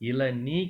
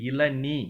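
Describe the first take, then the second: Both takes have the same delivery.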